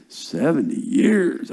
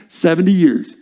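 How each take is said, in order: First: Slow, stretched SEVENTY YEARS; drawn-out disbelief. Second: Said in the usual way. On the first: Real, not acted. Preacher marvelling at the length of exile, drawn-out disbelief. Dwelling on how long it is.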